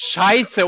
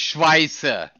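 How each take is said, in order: First: The word starts with sh and no w. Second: The word starts with sh followed by w. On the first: The speaker calls it right. "das heißt Scheiße" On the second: The speaker calls it wrong. "und nicht Schweiße"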